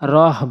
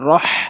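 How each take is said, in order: First: The h sound is a light, plain breath. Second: The h sound is harsh, from the throat. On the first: The speaker calls it wrong. "অধিকাংশ লোক রহ বলবে, কিন্তু ওইটা বললে ভুল হবে" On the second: The speaker calls it right. "বলতে হবে রহ"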